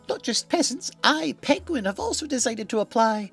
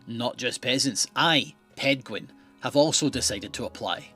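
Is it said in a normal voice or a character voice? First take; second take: character voice; normal voice. First: It is read in a put-on Pedguin voice. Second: It is read in the speaker's normal voice.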